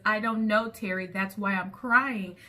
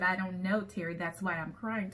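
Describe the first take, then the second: First: Loud, exasperated retold comeback; smart retort. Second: Understated retold smart comeback; smart retort. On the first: Crying woman answers her friend's pointless question, smart exasperated retort. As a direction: snap back smartly, dragging out the last words. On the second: Quoting the upset woman to show her being smart, mildly. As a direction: repeat the retort at an everyday volume, lightly pointed. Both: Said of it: "they have to be smart with you".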